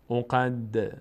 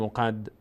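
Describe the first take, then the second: First: The final d ends with a short echoing bounce. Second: The final d ends flat without any bounce. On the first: The speaker calls it right. "دال هم از حروفی هست که میلرزه در مخرجش" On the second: The speaker calls it wrong. "نمیگیم"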